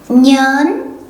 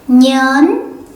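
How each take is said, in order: No difference in how they are said.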